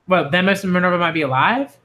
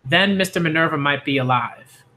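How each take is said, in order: First: "Mister Minerva might be alive?" rising at the end as a question; hopeful question. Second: Said in the usual way. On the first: Shown as a demonstration. A second child questioning whether Minerva is alive, with a hopeful rising tone. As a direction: ask it hopefully.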